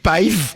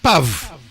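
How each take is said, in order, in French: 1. La voyelle glisse vers un son y avant le v. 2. La voyelle passe directement au son v. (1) "il faut pas dire paive" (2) "mais il faut dire pav"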